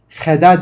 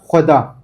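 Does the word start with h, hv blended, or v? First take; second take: h; hv blended. First: It starts with a plain h sound only. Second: It starts with h and v blended together. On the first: The speaker calls it wrong. "heda değil" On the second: The speaker calls it right. "H ve V'nin birleşimiyle o ses çıkıyor"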